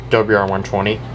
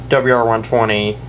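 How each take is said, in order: Both takes have the same delivery.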